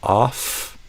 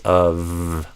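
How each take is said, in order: First: The word ends with an F sound. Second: The word ends with a V sound. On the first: The speaker calls it wrong. "So instead of off" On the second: The speaker calls it right. "we actually say it with the letter or the sound V"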